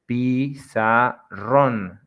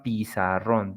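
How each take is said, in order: First: "Pizarrón" broken slowly into pi-za-RRÓN; stress on last syllable. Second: Said in the usual way. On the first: Shown as a demonstration. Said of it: "the strength is on ron". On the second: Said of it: "Some examples of that".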